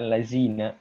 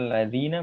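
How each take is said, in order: First: The middle consonant is a z sound. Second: The middle consonant is a dh sound. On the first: The speaker calls it wrong. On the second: The speaker calls it right.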